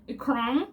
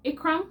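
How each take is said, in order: First: Teacher's Kenyan version of the name "Ikram"; imitated Kenyan accent, "Ikram" drawn out. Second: Put-on name in a Canadian accent, rising in question; Canadian "Ikram", pitched up like a question. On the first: Kenyan teacher repeating pupil's name back, Kenyan accent. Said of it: "you could say it like that". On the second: New pupil telling teacher her name, Canadian accent. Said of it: "I said it as a Canadian".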